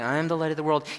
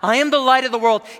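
First: It is said calmly, at normal volume. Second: It is cried out loudly and urgently.

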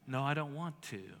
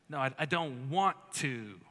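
First: It is said in a plain, neutral tone. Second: It is said in a snarky, sassy tone.

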